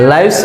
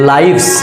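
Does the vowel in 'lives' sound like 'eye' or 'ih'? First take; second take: eye; eye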